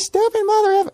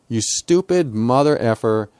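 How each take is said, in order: First: It is said in a squeaky high-pitched voice. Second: It is said in a normal-pitched voice.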